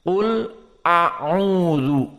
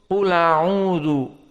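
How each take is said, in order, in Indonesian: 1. Hamzah sebelum a'udzu jelas dibaca. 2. Hamzah hilang dan vokalnya menyambung ke qul. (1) "mereka membaca adamun naql dan tahqiqul hamzah" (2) "Maka sama an-naql di sini"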